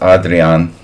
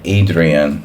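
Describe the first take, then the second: First: The name has a European pronunciation. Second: The name has an American pronunciation. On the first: "In European, it's Adrian" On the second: "That's the American way"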